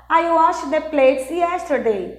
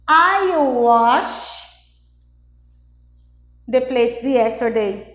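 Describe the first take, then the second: First: "washed" said slowly with a clear ed ending, like "wash-id"; corrected past tense. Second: "wash" said bare, with no ending sound; uncorrected exercise sentence. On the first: Teacher models the corrected sentence for her class, slowly. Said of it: "Então, olha só". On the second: Teacher reads the exercise to students before correcting it, slow and spaced. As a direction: read "I wash" as the unfinished exercise, spaced with pauses. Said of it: "eu vou acrescentar com E D esse wash". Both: Shown as a demonstration.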